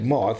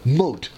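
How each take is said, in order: First: The word ends with a soft 'th' sound. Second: The word ends with a hard 't' sound. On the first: The speaker calls it wrong. "you don't say it moth" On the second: The speaker calls it right. "you say mote"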